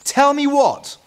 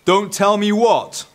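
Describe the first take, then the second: First: Very high, loud mum demanding answers; mother's voice. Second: Loud, slow, raised boom. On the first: Mother overhears the children arguing, high loud demand. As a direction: call out sharply as Mum. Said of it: "came the voice of their mother". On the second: Dad overhears from beyond the hedge, booming. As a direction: boom it out slowly across the garden. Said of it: "boomed the voice on the air". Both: A narrator's reading.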